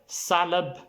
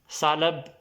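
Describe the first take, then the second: Both takes have the same delivery.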